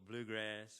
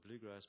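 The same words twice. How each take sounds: First: It is said in an imitated American accent. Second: It is said in the speaker's own non-American accent.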